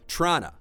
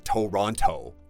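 First: It is shortened to two syllables, like Trana. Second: All three syllables are pronounced in full. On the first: This is how locals say the city's name. "他们说 / 后面是 N-A, Trana" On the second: This is how outsiders say the city's name. "they don't say Toronto"

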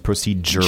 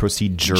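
First: The middle is said with a j sound. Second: The same.

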